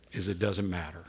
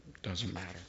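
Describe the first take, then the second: First: Said in the usual way. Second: Dropped almost to a breath; a quiet repeat to let the point sink in; hushed echo. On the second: Shown as a demonstration. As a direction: let it fall away softly. Soft echo of own line.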